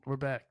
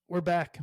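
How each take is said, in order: First: Said in the usual way. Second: We're back called out louder, show host energy; loud announcement. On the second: Real, not acted. Host announcing to listeners the show is back, loudly. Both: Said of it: "That was a nice little vintage chewing the rag".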